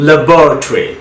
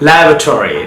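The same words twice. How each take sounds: First: ল্যাবরেটরি as "luh-BOR-uh-tree"; British second-syllable stress in ল্যাবরেটরি; British pronunciation. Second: ল্যাবরেটরি as "LAB-ruh-tor-ee"; American front-stressed ল্যাবরেটরি; American pronunciation. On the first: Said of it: "কীভাবে ব্রিটিশে sound করে". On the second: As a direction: stress "LAB" in ল্যাবরেটরি, full "tory" ending. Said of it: "কীভাবে আমেরিকানরা sound করে". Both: Shown as a demonstration.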